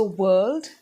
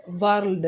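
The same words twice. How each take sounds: First: World with the r-coloured vowel, WURLD; correct pronunciation. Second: World with a rolled r, WARLD; wrong pronunciation. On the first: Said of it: "get it right". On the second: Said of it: "which is wrong". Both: Shown as a demonstration.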